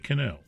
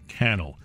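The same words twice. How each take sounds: First: The stress is on the second syllable. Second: The stress is on the first syllable. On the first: The speaker calls it wrong. "Don't say Cannell" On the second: The speaker calls it right. "rhymes with channel"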